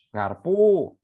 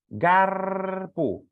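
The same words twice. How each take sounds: First: The stress is on the last syllable. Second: The stress is on the first syllable. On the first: The speaker calls it wrong. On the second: The speaker calls it right. "ngucapinya ditekan suku depan"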